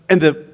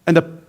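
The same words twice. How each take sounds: The two takes are said the same way.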